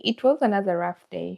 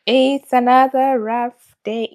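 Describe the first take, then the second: First: Said in the usual way. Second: Slow, louder, heavy "It's another rough day"; dragged-out, louder "It's another rough day"; weary lament. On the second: Real, not acted. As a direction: drag the words out, worn down. Restates after the sigh.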